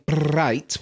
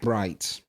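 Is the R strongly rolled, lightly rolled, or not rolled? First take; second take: strongly rolled; not rolled. First: The R is rolled long and heavily. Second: The R is not rolled at all. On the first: "So going bright would be too much" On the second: "you do not pronounce it bright"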